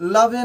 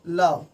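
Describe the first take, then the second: First: The word ends with an added 'e' vowel. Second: The word ends on the 'v' consonant. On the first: The speaker calls it wrong. "हम इसे लवे नहीं पढ़ सकते हैं" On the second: The speaker calls it right.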